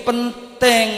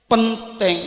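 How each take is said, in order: Both takes have the same delivery.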